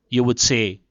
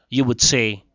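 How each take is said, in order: Both takes have the same delivery.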